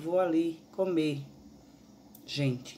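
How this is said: There is a pause before the last word. The speaker tells people they are going to eat.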